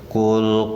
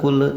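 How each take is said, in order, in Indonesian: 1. L terakhir ditahan saja tanpa gema. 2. L terakhir dipantulkan dengan gema. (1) "tahan saja ya" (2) "tidak boleh ditabalutkan di sini, tidak boleh"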